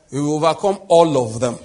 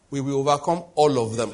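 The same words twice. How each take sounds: First: Louder, rousing declaration; rally the crowd, full voice; roaring rallying speech. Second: Said in the usual way. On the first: Acted. Preacher repeats louder for congregation.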